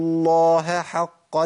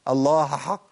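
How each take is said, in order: First: The h is clearly pronounced before the next h. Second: The h is merged into the following h. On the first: The speaker calls it right. "لازم اقول" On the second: The speaker calls it wrong. "اوعى تضغمها في الحاء، ما اقولش"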